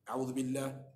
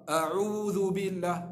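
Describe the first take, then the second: First: The opening 'a' is soft and unclear. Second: The opening 'a' is firm and clearly voiced. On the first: The speaker calls it wrong. "Kita jangan baca cara tak terang" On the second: The speaker calls it right. "kena bagi jelas"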